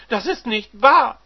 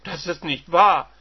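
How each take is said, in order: First: Higher, even louder scream of denial; screaming wife. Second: Loud furious denial; shocked wife. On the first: Wife screaming denial at her husband, higher and louder. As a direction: shriek the denial again. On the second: Wife denying her husband's news, loud. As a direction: refuse to believe it. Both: Acted.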